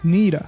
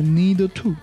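First: The two words are linked into one needa. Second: The two words are said separately and fully. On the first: The speaker calls it right. "连读一下need" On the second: The speaker calls it wrong. "不要读成need to"

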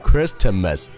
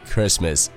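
First: A t sound is pronounced in the middle. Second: No t sound is pronounced in the middle. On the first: The speaker calls it wrong. "字母T 它是不发音的，所以说不会读成Christmas" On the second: The speaker calls it right. "而是Christmas"

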